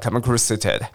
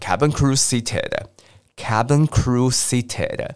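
First: The phrase is said very quickly. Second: The phrase is said at a normal pace.

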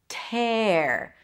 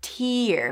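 First: The vowel is an open 'eh' sound. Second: The vowel is a long high 'ee' sound. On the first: To rip or ruin something. "And then it's pronounced with an A sound" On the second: A drop of liquid from the eye. "Here it's pronounced with a T sound, then a high E"

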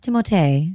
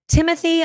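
First: The name is said the French way. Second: The name is said the plain English way. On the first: The speaker calls it right. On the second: The speaker calls it wrong.

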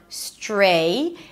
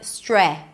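First: The vowel is long, as in 'day'. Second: The vowel is short, as in 'bed'. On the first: The speaker calls it right. "Then it's the A as in day" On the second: The speaker calls it wrong. "So it's not stre"

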